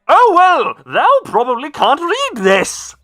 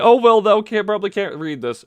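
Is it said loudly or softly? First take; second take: loudly; softly. First: It is said at a very loud volume. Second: It is said at a soft, normal volume.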